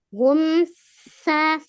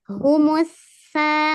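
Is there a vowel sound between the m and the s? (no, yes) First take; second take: no; yes. First: The m runs straight into the s. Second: An u vowel comes between m and s. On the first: The speaker calls it wrong. "coba kalau kalau tetap sukun gimana kita bacanya? ... sulit kan membacanya?" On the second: The speaker calls it right. "makanya ditambahkan harokat dhammah"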